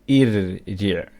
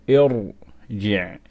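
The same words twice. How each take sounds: First: The r sound is light and thin. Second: The r sound is heavy and full. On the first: The speaker calls it wrong. "You're not going to say irji'" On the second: The speaker calls it right. "then we make the ra strong"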